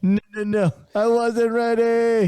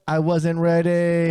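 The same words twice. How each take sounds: First: High, slow Kevin Hart line; Kevin Hart impression. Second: Slow, drawn-out Kevin Hart line; Kevin Hart impression. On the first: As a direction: pitch it up and drag it out. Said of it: "That's what your stomach was saying". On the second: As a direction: stretch it out slowly like Kevin Hart. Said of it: "This reminds me of a Kevin Hart stint".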